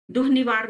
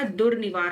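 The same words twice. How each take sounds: First: दुह निवार with breathed h, no r; wrong pronunciation. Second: दुर्निवार with r closing the first syllable; correct pronunciation. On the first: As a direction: say दुह निवार as duh-nivaar. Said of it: "दुह निवार नहीं होता". (दुह निवार में र की जगह ह) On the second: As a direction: say दुर्निवार as dur-nivaar. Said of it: "दुर्निवार होता है". (दुर्निवार में 'दुर्' का र साफ़) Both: Shown as a demonstration.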